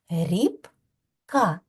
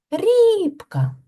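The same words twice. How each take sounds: First: "Рібка" in two parts, a clear pause between "Ріб" and "ка"; split into syllables. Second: "Рібка" with "Ріб" drawn out high and loud; stressed first syllable. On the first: Teacher has children clap out the syllables, "Рібка" syllable by syllable. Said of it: "Скільки складів у цьому слові". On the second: Teacher shows children the stressed syllable, "РІБ-ка" stressed on the first. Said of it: "А який склад наголошений". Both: Shown as a demonstration.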